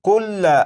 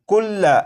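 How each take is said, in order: No difference in how they are said.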